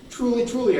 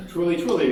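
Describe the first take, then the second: First: "Truly, truly" hit higher and harder, each word punched; emphatic repeat. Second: Said in the usual way. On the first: Acted. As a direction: insist with "Truly, truly" raised high. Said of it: "again, I'm serious here". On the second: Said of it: "Jesus more emphatically".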